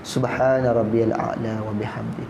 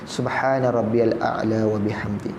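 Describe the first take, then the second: No difference in how they are said.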